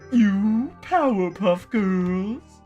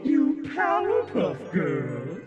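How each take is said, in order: First: The voice is plain, with no audio effects. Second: The voice is altered by audio effect filters. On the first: "without the filters" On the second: "you add the filters"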